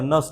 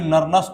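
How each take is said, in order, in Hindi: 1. Nernst में अंतिम st से पहले का n साइलेंट रहता है। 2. Nernst में अंतिम st से पहले का n बोला जाता है। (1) "एन साइलेंट रहता" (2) "इसको कोई नरनस्ट नहीं पढ़ेगा"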